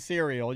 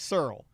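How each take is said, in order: First: The word is said the standard way. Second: The word is said the Southern way. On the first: "you're not going to say cereal" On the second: "You're going to say Searle, like my dad said it. It's a Southern thing"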